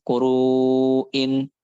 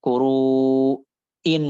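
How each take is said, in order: First: KURU'IN with long "ruu" flowing to a clean "in"; measured hamzah. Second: KURU'IN with long "ruu", a gap, then forced "in"; exaggerated hamzah. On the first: Teacher corrects the reading, measured hamzah in KURU'IN. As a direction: hold "ruu" in "kuru'in", then an unforced catch. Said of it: "tapi kuru'in gitu". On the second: Teacher shows what not to do, overdone hamzah in KURU'IN. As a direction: detach and push the "in" of "Kuru'in". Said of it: "nggak gitu". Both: Shown as a demonstration.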